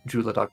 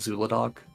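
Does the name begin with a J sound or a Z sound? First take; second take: J sound; Z sound. First: The name begins with a J sound. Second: The name begins with a Z sound. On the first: This follows the Chinese pronunciation. "I do Juladoc because that would be if you're pronouncing in Chinese. Z H is pronounced as a J sound" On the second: This is how many people commonly say it. "a lot of people just say call it Zuladoc, which is like fine"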